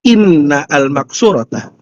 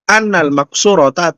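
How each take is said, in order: First: The first word begins with an 'i' vowel. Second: The first word begins with an 'a' vowel. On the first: The speaker calls it right. "Inna itu ini inna ya" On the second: The speaker calls it wrong. "jangan anna ya. Itu salah saya"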